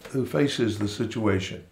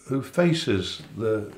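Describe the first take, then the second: First: Said in the usual way. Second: Faces drawn out slowly; slow stress on faces. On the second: Shown as a demonstration.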